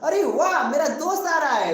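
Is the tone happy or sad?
happy. It is said happily and loudly.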